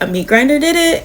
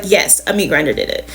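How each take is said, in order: First: Higher, quick disbelieving question; incredulous question. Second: Lower, flat falling statement; firm insistence. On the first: Girls questioning their mother's story, incredulous. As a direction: ask it like you can't believe it. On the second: Mother insisting to the girls, firm and final. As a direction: shut down the question firmly. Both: Retold or imitated.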